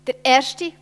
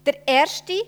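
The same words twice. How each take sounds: First: „erste“ again lifted high and loud; stress on erste. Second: „erste“ lifted high and loud; stress on erste. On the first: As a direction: keep punching „erste“. (starke Betonung auf „erste“) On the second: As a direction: hammer home „erste“ each time. (Betonung auf „erste“) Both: Real, not acted. Repeated emphatic phrase.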